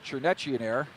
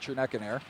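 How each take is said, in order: First: The middle consonant is a ch sound. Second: The middle consonant is a k sound. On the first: The speaker calls it right. "I've been told it's" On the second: The speaker calls it wrong.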